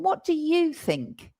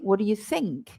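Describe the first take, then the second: First: The stress falls on 'you'. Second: The stress falls on 'what' and 'think'. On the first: The speaker is turning to a different person. "what I want to emphasize now is you" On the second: The speaker is asking for an opinion. "And I stress what and think"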